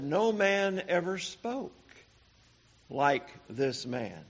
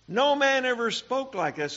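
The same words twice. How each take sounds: First: Said in the usual way. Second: Higher, awed declaration; preacher echoing the officers in astonishment; amazed exclamation. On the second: Acted. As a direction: ring out the wonder of it.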